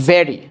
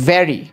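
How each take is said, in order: The two takes are said the same way.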